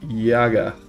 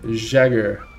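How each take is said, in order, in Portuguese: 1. O nome recebe a pronúncia original. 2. O nome recebe uma pronúncia local brasileira. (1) "Se pronuncia Jäger" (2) "Mas pra nós aqui é Jagger"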